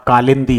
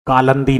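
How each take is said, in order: First: कालिंदी said as "kalindi" with an i after l; the correct कालिंदी, "lin" in the middle; कालिंदी with the short i clearly sounded; correct form. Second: कालंदी said as "kalandi" with a plain a in the middle; the incorrect कालंदी, no i after l; कालंदी with "lan" in the middle syllable; wrong form. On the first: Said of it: "कालिंदी होता है". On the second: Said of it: "कालंदी नहीं होता". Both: Shown as a demonstration.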